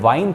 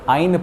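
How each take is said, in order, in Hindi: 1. यह 'w' ध्वनि से शुरू होता है। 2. यह स्वर ध्वनि से शुरू होता है। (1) "वाइन थोड़ी पढ़ते हैं" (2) "आइन पढ़ते हैं"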